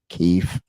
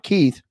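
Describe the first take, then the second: First: The name ends with an f sound. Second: The name ends with a th sound. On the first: The speaker calls it right. "K I E F" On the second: The speaker calls it wrong. "Not Keith"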